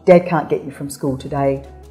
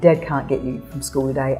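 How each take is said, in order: First: The voice sounds calm and reassuring. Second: The voice sounds upset and angry. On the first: Nothing is wrong between the parents. The speaker calls it right. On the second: The parent is angry with the other parent. The speaker calls it wrong.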